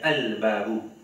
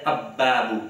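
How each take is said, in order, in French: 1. L'article se dit al, avec le l. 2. L'article se dit ab, le l est assimilé. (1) "nous dire Al-Babu" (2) "nous pas dire Ab-Babu"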